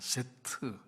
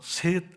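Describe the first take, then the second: First: It is two syllables ending in a 'teu' sound. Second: It is one syllable ending in a cut-off t. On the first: The speaker calls it right. "트라는 발음이 붙어야 돼요" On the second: The speaker calls it wrong. "셋이 아니라니까요"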